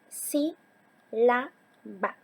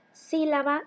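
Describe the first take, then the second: First: "sí, la, ba" as three separate beats; teacher dividing "sí, la, ba" into syllables. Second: Said in the usual way. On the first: Shown as a demonstration. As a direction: split it into sí... la... ba, pausing after each. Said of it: "Sílaba se divide en". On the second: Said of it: "se divide en".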